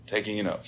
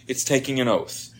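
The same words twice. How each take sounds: First: "Taking an oath" repeated much softer, stress on "Taking"; soft echo. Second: Said in the usual way. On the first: Shown as a demonstration. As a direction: let the phrase sink in quietly.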